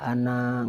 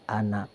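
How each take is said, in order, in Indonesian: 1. Vokal akhir dibaca panjang. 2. Vokal akhir dibaca pendek. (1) "Nggak boleh anak, nggak boleh ya" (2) "harus anak pen pendek"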